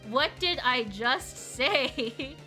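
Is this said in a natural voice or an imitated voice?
imitated. It is said with imitated intonation. It copies someone else's way of talking. "That's how Kevin would say that"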